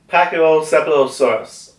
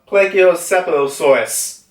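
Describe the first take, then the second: First: The word begins with a 'pack' sound. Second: The word begins with a 'plage' sound. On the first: The speaker calls it right. "I think I said it right this time" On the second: The speaker calls it wrong. "I think I said it more wrong"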